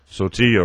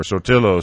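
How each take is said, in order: First: Sotillo said as "so-TEE-oh"; name with silent L's. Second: Sotillo said as "so-TIL-oh"; name with sounded L. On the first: Reader trying a name, Sotillo as "so-TEE-yo". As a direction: say the double L in Sotillo as a Y. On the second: Reader offering another version, Sotillo as "so-TIL-oh". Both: Shown as a demonstration.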